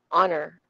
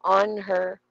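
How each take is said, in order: First: "on her" run together quickly and lightly; quick and soft. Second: "On her" as two separate, fuller words; careful unreduced take. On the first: Teacher showing unstressed words, quick light "on her". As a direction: slip through "on her" as one short word. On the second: Teacher contrasting forms for students, "On her" said fully. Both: Shown as a demonstration. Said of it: "mabilis lang siya at soft lang siya".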